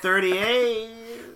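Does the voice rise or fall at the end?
fall. The voice falls at the end like a statement. The speaker sounds certain of the number.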